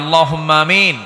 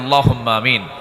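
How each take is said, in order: First: It is said even more loudly. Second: It is said loudly.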